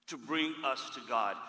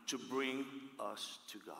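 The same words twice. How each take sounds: First: Said in the usual way. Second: Softer, hushed first take; quiet take. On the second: Shown as a demonstration. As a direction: say it low, almost to yourself.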